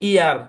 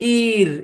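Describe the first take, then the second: First: The vowel glides from 'ee' into 'uh'. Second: The vowel is a short single 'ir' sound. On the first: The speaker calls it right. "Double ই আর এর sound হচ্ছে ইয়ার" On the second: The speaker calls it wrong. "এটার sound ইর হবে না"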